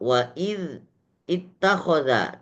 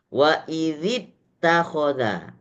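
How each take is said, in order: First: The words stay separate with no linking vowel. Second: The words are joined by an added i vowel. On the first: "sebenarnya tulisannya adalah" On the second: "maka harus dibaca"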